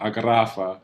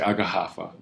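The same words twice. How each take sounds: First: The double R is rolled, Spanish-style. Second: The double R sounds like an H.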